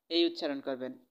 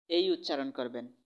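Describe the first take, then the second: No difference in how they are said.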